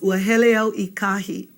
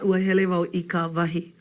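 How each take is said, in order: First: The words ka wahi are contracted to kahi. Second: The words ka wahi are said in full. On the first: The speaker calls it right. "that contracts to kahi" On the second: The speaker calls it wrong.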